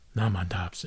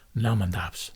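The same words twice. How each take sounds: First: The phrase is clipped into one short word. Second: The same.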